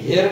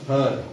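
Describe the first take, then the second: First: The vowel is a clear 'e' sound. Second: The vowel is an 'uh' sound. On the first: The speaker calls it wrong. "तुम्ही हेरड म्हणू शकले असती तर परंतु नाही" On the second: The speaker calls it right. "अ आलाय हर"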